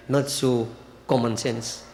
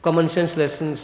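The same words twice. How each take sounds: First: "not" leaned on, slower and lower, wry; ironic stress on not. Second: Said in the usual way. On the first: Shown as a demonstration. Preacher to devotees, wryly stressing "not". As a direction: drag out "not so common" with a knowing lower tone. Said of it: "Again that I say". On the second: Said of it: "Again that I say, not so common sense".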